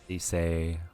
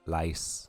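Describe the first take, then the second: First: The vowel is a long 'ee' sound. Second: The vowel is an 'eye' sound.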